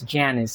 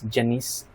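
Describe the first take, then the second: First: The name is said with an American pronunciation. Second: The name is said with a Filipino pronunciation. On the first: "we pronounce it as Janice in American English" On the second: "in the Philippines, we pronounce Janice as Janice"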